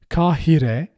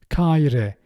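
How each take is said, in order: First: The middle h sound is clearly pronounced. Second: The middle h sound is left out. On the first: "with clear pronunciation" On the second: "We omit he if it's in the middle"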